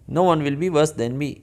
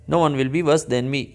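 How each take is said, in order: Both takes have the same delivery.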